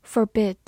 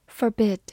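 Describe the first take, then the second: No difference in how they are said.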